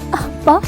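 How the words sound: The word is said in a sad voice.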